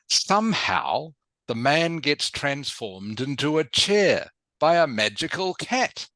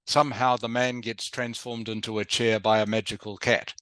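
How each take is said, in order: First: It is said with dramatic, lively expression. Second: It is said flatly, with little expression. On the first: It makes the story sound surprising and interesting. The speaker calls it right. "you can be a little bit more dramatic" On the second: It makes the story sound uninteresting. The speaker calls it wrong. "instead of just saying... That doesn't sound so interesting"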